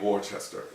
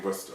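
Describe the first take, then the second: First: The word is said with more syllables. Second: The word is said with fewer syllables. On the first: The speaker calls it right. "It's got to be Worcester" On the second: The speaker calls it wrong. "there are too many syllables here for it to be Worcester"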